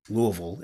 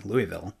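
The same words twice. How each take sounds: First: Louisville swallowed into LOO-uh-vul; local Kentucky pronunciation. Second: Said in the usual way. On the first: Shown as a demonstration. Newcomer shows how it's pronounced here, Louisville as LOO-uh-vul. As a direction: blur Louisville's middle and end, LOO-uh-vul. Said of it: "how you're supposed to pronounce it here". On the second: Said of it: "how you're supposed to pronounce".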